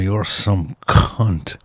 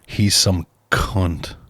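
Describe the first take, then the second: First: The C gets a bit more emphasis. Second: The C gets only mild emphasis.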